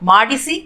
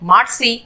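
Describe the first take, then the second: First: The middle i vowel is pronounced fully. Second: The middle i vowel is dropped.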